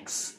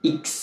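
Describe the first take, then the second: First: The letter is said as eks. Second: The letter is said as iks. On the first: This is the English way to say it. "যেটাকে আমরা ইংরেজিতে উচ্চারণ করি" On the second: This is the Italian way to say it. "Italian উচ্চারণ"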